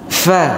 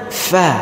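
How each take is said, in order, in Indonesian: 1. Diawali bunyi f yang berhembus. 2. Diawali bunyi f yang berhembus.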